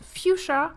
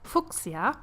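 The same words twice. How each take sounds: First: The name is pronounced the English way. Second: The name is pronounced the German way.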